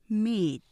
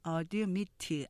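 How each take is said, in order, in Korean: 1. 두 음절이고, 두 번째 음절에 강세가 있습니다. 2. 세 음절이 고르게 발음됩니다. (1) "이음절 하면서 이건 뒤에 액센트 있죠" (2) "3음절이나 4음절로 발음하실 수 있지만"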